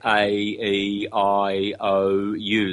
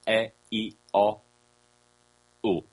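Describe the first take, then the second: First: Each vowel glides between two sounds. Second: Each vowel stays on one steady sound. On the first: The speaker calls it wrong. "Never say the vowels in the very unphonetic English way, ... Those are diphthongs" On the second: The speaker calls it right. "The true vowels are"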